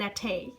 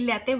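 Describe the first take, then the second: First: It is said with an affected English accent. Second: It is said with a plain Bengali accent.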